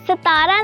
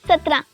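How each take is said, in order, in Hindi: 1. इस शब्द में तीन अक्षर हैं, और बीच का स्वर लंबा है। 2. इस शब्द में दो अक्षर हैं, और 'tr' का गुच्छा है। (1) "सतारा नहीं"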